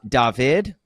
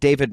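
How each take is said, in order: First: The name is said with a non-English, foreign pronunciation. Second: The name is said with an American English reading. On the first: The speaker calls it right. "it is actually uh" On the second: The speaker calls it wrong. "That's how you would read it uh, here in America"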